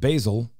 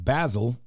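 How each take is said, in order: First: It uses the standard pronunciation. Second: It uses the family's variant pronunciation. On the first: This is how most people say it. "instead of basil" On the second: This is how the family says it. "Sometimes my dad says basil"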